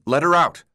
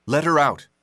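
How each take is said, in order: First: Higher, louder pleading. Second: Firm, steady demand with stress on her. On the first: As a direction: beg "Let her out" with urgency, loud on "her". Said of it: "He wouldn't give up this time". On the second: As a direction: say "Let her out" as a flat firm order, leaning on "her". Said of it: "Thomas stood by the cell door, arms folded". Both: Acted.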